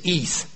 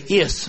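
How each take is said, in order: First: The ending is said the Greek way. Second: The ending is said the English way. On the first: The speaker calls it right. "but it's in Greek it's is" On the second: The speaker calls it wrong. "we would say is"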